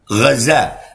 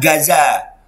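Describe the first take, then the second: First: It starts with a throaty, rasping gh sound. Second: It starts with a plain hard G sound. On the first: The speaker is a real Palestinian. The speaker calls it right. "pakai gha, ghain" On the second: The speaker is an outsider, not Palestinian. The speaker calls it wrong. "Kalau influencer nggak bisa nyebut Gaza dia. Nyebutnya"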